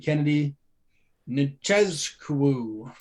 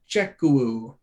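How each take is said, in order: First: A z sound is said in the middle. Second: No z sound is said in the middle. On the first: The speaker calls it wrong. "Cannot pronounce this dude's last name" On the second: The speaker calls it right. "maybe the Z isn't pronounced there"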